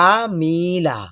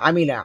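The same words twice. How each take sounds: First: A vowel is drawn out long. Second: The vowels are kept short. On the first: The speaker calls it wrong. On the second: The speaker calls it right.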